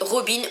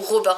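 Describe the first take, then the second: First: The name is pronounced the French way. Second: The name is pronounced the English way. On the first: "à la française" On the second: "à l'anglaise"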